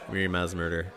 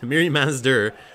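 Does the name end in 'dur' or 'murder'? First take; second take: murder; dur. First: The name ends with the word 'murder'. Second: The name ends with a short 'dur' sound. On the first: This is the popular nickname. "that's what everyone is calling her now" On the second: This is the card's actual name. "but she's just Miri Maz"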